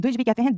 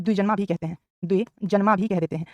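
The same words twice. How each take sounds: First: Said in the usual way. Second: द्विजन्मा stretched out slowly for copying; slow dictation pace. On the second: Shown as a demonstration. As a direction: spell out द्विजन्मा syllable by syllable.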